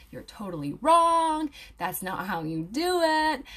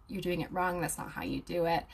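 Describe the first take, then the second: First: Slow, drawn-out mock telling-off; mock scolding commenter. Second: Said in the usual way. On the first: Commenters correct an aromatherapy student, mock scolding. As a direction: imitate a know-it-all correcting someone, stretching the words. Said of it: "come onto my post and be like". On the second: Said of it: "straight up sometimes will say".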